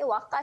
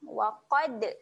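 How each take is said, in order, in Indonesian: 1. Bunyi d akhir dihilangkan sepenuhnya. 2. Bunyi d akhir dilantunkan. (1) "waqa salah" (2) "lantun kan bunyi dal mati waqad"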